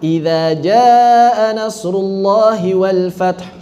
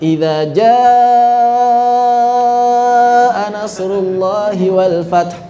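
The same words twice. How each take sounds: First: It is recited quickly with short vowels. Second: It is recited slowly with very long vowels.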